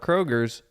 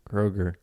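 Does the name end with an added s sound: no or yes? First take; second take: yes; no. First: The name ends with an added s sound. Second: The name ends without any s sound. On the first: The speaker calls it wrong. "Not Kroger's" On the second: The speaker calls it right. "you don't add an S"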